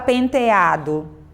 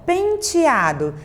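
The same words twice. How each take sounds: First: The e before 'ado' sounds like e. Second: The e before 'ado' sounds like i. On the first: The speaker calls it wrong. "Você não fala penteado" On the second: The speaker calls it right. "às vezes você vai pronunciar a letrinha E com som de I"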